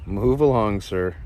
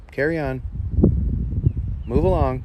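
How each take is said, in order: First: Mock polite loud shoo; loud shoo again. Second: Raised voice, shooing the snake off; loud order to move along; firm loud shoo. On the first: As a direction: call it loud to shoo the snake. Shooing a snake away. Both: Real, not acted.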